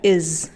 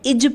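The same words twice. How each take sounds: First: The word ends with a 'z' sound. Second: The word ends with a 'j' sound. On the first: The speaker calls it right. "इसमें ज पे बिंदी लगी है तो ये ज बन गया इज" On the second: The speaker calls it wrong. "बहुत से लोग इज पढ़ते हैं जो कि गलत है"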